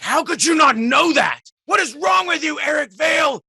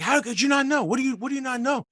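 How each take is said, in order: First: High, loud furious shout; irritated shout. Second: High-pitched demanding yell, fast at the end; mock the fan who can't believe it; retold yelling. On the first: Retold or imitated. Irritated fan shouting at Eric Vale over a trivia question, high angry shout. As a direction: blow up at him in outrage. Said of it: "got visibly irritated and was like". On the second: Fan yelling at a tired voice actor, high and demanding. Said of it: "he starts yelling at me".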